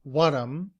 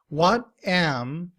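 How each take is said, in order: First: The words blend into one short form. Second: Both words are said fully.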